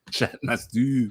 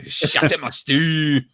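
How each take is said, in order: First: Softer, slow Scottish echo; Scottish accent. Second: Higher-pitched mock Scottish cry; imitated Scottish accent. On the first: Shown as a demonstration. Actor echoing his own line after laughing, subdued Scottish accent. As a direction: say it in Scottish, slower and held back. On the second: Host picturing his friend saying the line, mock Scottish accent. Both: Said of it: "in my best Scottish accent".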